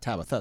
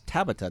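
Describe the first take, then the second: First: The middle consonant is a th sound. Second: The middle consonant is a plain t sound. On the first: The speaker calls it wrong. "not Tabitha" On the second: The speaker calls it right. "It's Tabitha"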